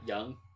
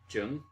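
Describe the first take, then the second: First: The name begins with a Y sound. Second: The name begins with a J sound. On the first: The speaker calls it right. "that's a silent J?" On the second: The speaker calls it wrong. "I was pronouncing it Jung"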